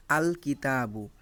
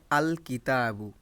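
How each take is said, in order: First: Slow, with আল said clearly and apart before কিতাবু; clear separate al. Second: Said in the usual way. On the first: Shown as a demonstration. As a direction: say আল distinctly, its l sound plain, then কিতাবু. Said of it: "আল এই কথাটা স্পষ্ট এবং আলাদাভাবে উচ্চারিত". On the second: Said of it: "আল এই কথাটা স্পষ্ট".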